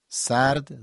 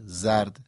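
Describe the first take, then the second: First: سرد with a clear unvoiced s; s sound. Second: زرد with a clear voiced z; z sound. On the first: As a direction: pick out the s starting سرد. (سرد با سین واضح) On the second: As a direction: pick out the z starting زرد. (زرد با ز واضح) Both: Shown as a demonstration. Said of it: "سین و ز اینا نزدیک همن".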